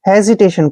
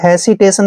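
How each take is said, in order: First: The consonant after the first vowel is a Z. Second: The consonant after the first vowel is an S. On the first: The speaker calls it right. "एस का उच्चारण हम जय करते हैं" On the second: The speaker calls it wrong. "आपने हेसिटेशन नहीं पढ़ना है"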